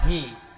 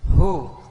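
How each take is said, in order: First: The word ends in an i vowel. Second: The word ends in a u vowel.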